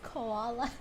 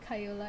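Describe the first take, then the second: First: The name is said like the word koala. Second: The name is said as Kay-yoo-la. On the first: The speaker calls it right. "it's koala" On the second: The speaker calls it wrong. "It's not Kayula"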